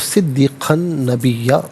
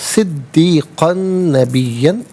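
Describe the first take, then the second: First: The last word ends on a long a vowel. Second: The last word ends with an n sound. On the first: The reading stops at this word. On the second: The reading continues without stopping.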